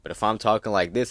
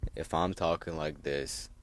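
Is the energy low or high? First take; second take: high; low. First: It is said with high energy. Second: It is said with low energy.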